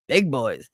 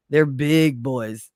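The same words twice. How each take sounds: First: Said in the usual way. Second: Drawn out. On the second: Shown as a demonstration.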